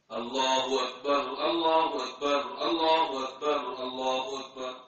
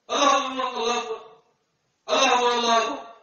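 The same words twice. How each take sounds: First: All four are said in one breath. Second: It pauses for breath after two.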